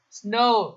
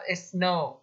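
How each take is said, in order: First: The s and n are joined with no vowel. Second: A short vowel is inserted between s and n. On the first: The speaker calls it right. "saya perhatikan kalau ada S sama N" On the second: The speaker calls it wrong.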